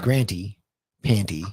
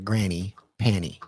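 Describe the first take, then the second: First: The first word is said with a t sound. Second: The first word is said without a t sound.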